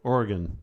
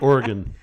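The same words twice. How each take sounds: First: The last syllable is reduced, sounding like 'gun'. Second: The last syllable keeps a full 'o' vowel. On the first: The speaker calls it right. "get rid of the O. ... like a gun" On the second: The speaker calls it wrong. "you you say it Oregon"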